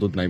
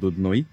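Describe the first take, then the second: First: The name ends with an 'ai' sound. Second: The name ends with an 'oi' sound. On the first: This is how outsiders using English pronunciation say it. "English প্রনাউন্সিয়েশনটা যারা করেন তারা দুধ নাই বলে থাকেন" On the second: This is how local people say it. "লোকালাইট যারা আছেন তারা বলেন দুধনই"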